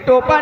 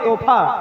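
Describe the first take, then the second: First: The word is said with a plain p sound. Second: The word is said with an h-f sound. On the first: The speaker calls it wrong. "टोपा नहीं" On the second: The speaker calls it right. "तोहफा बोलते हैं"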